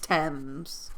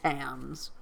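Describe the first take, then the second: First: The word rhymes with gems. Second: The word does not rhyme with gems. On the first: The speaker calls it right. "It rhymes with gems" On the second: The speaker calls it wrong. "I probably said Tams"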